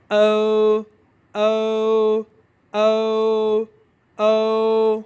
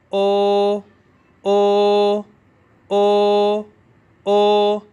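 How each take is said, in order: First: او drawn out, gliding from o to u; ou sound. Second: او as one long, steady, loud o; pure o sound. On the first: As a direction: slide the long او into a u. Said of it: "او یو کی pronunciation ہے". (او یو کی لمبی، پھسلتی آواز) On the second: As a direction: hold او loudly without gliding to u. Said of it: "او کی pronunciation ہے". (صرف او کی سیدھی، لمبی آواز) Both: Shown as a demonstration.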